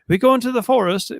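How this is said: It is said in a posh British accent. "with some sort of like high British accent"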